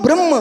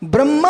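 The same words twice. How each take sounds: First: ब्रह्म ending on mm with barely a short a; short final vowel. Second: ब्रह्मा ending in a full long aa; long final vowel. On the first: Teacher separating two words, short ending on ब्रह्म. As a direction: close ब्रह्म on the m, no long aa. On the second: Teacher separating two words, long final aa in ब्रह्मा. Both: Shown as a demonstration. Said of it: "दो शब्द बोल रहा हूं".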